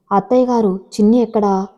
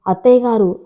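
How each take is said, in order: First: Mildly worried daughter-in-law asking; anxious question. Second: Understated narrated shout; loud angry call. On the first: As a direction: ask with a touch of alarm. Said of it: "అని అడిగింది మేఘన కంగారుగా". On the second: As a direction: call out sharply, only mildly raised. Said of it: "అని గట్టిగా అరిచింది". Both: A narrator's reading.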